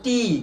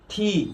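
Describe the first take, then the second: First: The t is said without a puff of air. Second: The t is said with a puff of air. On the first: The speaker calls it wrong. "আমরা উচ্চারণ করি" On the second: The speaker calls it right. "এর সঠিক উচ্চারণ"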